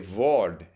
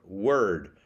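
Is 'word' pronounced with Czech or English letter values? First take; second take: Czech; English. First: It is pronounced with Czech letter values. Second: It is pronounced with English letter values. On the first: The speaker calls it wrong. "He would say word" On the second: The speaker calls it right. "instead of word"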